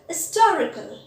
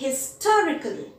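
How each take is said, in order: First: The word starts without an h sound. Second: The word starts with an h sound. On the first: It takes the article an. "There are people who pronounce it as historical" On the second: It takes the article a. "Generally, we say a historical place"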